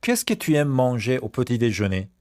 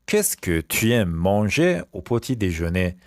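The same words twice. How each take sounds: First: Said in the usual way. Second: Slow, spaced-out French question; slow repeat. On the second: Shown as a demonstration. Teacher repeats the breakfast question for pupils, slowly. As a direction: stretch it out for learners.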